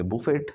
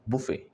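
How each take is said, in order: First: बुफेट with the T sounded, boo-fet; बुफेट as a wrong version with final T; wrong pronunciation. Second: बुफे with silent T, boo-fay; बुफे, no T at the end; correct pronunciation. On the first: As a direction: say बुफेट ending hard on T. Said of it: "अब कुछ लोग कह रहे हैं इसको बफेट". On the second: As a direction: say बुफे ending open on the vowel. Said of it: "इसमें टी नहीं है". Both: Shown as a demonstration.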